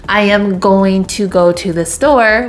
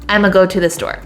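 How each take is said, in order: First: Every word is said fully and separately. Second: The words are contracted and run together. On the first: "instead of saying something like" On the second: "we would say something like"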